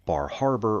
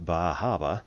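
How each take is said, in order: First: It is said in a standard accent. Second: It is said in a Down East Maine accent.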